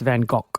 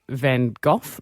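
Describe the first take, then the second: First: It is said the Dutch way. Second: It is said the British English way. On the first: The speaker calls it right. "the Dutch say neither are correct. It's" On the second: The speaker calls it wrong. "in Britain, we say"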